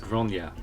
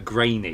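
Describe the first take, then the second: First: The name sounds like gron-ya. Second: The name sounds like the word grainy. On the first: It is said the way the name is meant. The speaker calls it right. "it's pronounced Gronya" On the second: It is read the way it is spelled. The speaker calls it wrong. "why I want to keep calling her Grainy"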